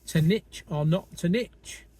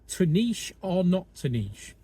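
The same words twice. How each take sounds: First: Niche is said the American way, like 'nitch'. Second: Niche is said the British way, like 'neesh'.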